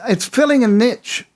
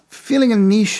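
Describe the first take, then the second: First: It is said in an American accent. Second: It is said in a British accent.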